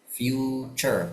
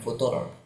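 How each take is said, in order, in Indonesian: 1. Akhirannya dibaca dengan bunyi 'cher'. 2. Akhirannya dibaca dengan bunyi 'tur' biasa. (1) "cara bacanya future" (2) "bukan futur"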